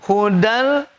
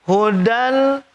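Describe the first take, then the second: The two takes are said the same way.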